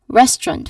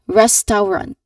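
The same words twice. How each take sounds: First: The middle sounds are squeezed into two syllables. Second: Every vowel sound is pronounced separately and fully. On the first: The speaker calls it right. "it is res and then trunt" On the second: The speaker calls it wrong. "pronouncing all those vowel sounds distinctly"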